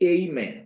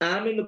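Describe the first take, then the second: First: It is said in a stylish, English-like way. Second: It is said in a plain, local Malayalam way. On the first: "ഈ അല്പം സ്റ്റൈലും ശൈലിയൊക്കെ കിട്ടിയെങ്കിലേ" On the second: "നമ്മളിപ്പം ആമെന്ന് പറയില്ല"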